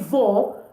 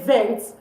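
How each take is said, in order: First: The final T sound is silent. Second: A final T sound is pronounced. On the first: The speaker calls it right. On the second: The speaker calls it wrong. "don't pronounce the T at the end. Don't say"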